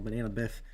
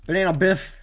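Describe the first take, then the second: First: Said in the usual way. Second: "Banana Biff" called out louder and higher, like a fun announcer; playful nickname. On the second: Shown as a demonstration. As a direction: sell the nickname with a grin. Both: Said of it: "that's what I should have put on the name reel".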